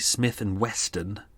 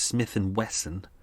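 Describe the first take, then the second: First: The last word has a t sound. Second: The last word has no t sound. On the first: The speaker calls it wrong. "make sure you don't say Smith and Weston, as everyone says, which is a mistake" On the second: The speaker calls it right. "It's Smith and Wesson, W E S S O N"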